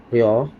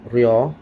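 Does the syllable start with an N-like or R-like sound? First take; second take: R-like; R-like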